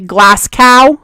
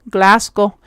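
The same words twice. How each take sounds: First: It is said with an exaggerated American accent. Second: It is said without an exaggerated American accent.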